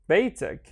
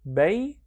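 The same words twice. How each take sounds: First: "beitik" run together as one word; joined-up model reading of "beitik"; syllables joined. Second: "beitik" split with a pause before "tik"; broken-up, higher demo of "beitik"; syllable by syllable. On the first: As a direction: connect "beitik" with no gap. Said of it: "and then connect them". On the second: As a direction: sound out "beitik" in two separate pieces. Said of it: "read each one on its own". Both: Shown as a demonstration.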